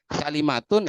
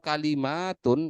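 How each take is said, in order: First: The vowel after the m is short. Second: The vowel after the m is long. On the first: The word is singular. "itu mufradnya" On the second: The word is plural. "itu adalah jamaknya"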